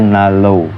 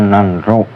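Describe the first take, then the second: First: The middle has a long l sound only. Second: The middle has an n followed by r. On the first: The speaker calls it right. "tapi dibaca itu nalo" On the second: The speaker calls it wrong. "tulisannya nanro"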